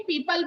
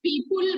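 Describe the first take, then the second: First: People said as "pee-puhl" with a short neutral second vowel; correct pronunciation. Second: People said as "pee-pul" with a rounded second vowel; wrong pronunciation. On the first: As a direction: model people properly as "pipəl". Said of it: "people बोलते हैं". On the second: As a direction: mispronounce People as "pipul" to show the mistake. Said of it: "People बोलते नहीं है कभी भी". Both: Shown as a demonstration.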